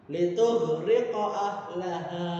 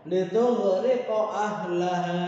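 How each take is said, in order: No difference in how they are said.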